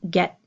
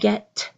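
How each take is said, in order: First: The final T is soft and unreleased. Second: The final T is strongly released. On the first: The speaker calls it right. "you hear get" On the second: The speaker calls it wrong. "you don't hear a strong get"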